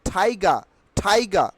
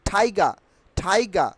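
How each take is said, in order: The two takes are said the same way.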